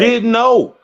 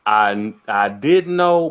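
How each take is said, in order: First: High and loud, hitting know hard; emphatic denial. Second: Slow, hesitant rephrasing; hedged, drawn out. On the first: Telling the interviewer he flat out didn't know, said emphatically. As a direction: insist on "know", said high and loud with a firm fall. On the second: Correcting himself to the interviewer, slow and hedging. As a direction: stretch "know" slowly, low, with a knowing hedge. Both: Shown as a demonstration. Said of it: "Let me rephrase that".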